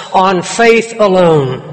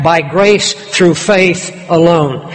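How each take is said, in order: First: Faith alone drawn out slowly, weight on faith; preacher stresses faith alone; slow emphasis. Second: By grace through faith alone, slow with weight on grace; preacher slows to stress grace; slow emphasis. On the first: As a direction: slowly press the word faith. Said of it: "Jesus lays the emphasis". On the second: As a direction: slowly lean on grace. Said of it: "lays the emphasis". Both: Shown as a demonstration.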